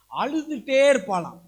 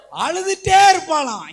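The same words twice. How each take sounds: First: Said in the usual way. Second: Same words thrown out much louder and higher; full-force pulpit cry on அழுதுட்டே; preaching shout. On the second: Acted. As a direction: hammer the line home to the congregation.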